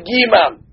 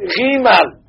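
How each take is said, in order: First: It begins with a hard g sound. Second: It begins with a soft throaty sound. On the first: The letter has a dagesh. "If the letter gimal has a dagesh in it, we say gimal" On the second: The letter has no dagesh. "does not have the dagesh in it, we pronounce it gimal. Like the Israelis would pronounce a resh"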